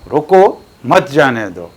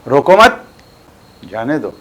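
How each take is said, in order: First: There is a pause after रोको. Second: There is a pause after मत.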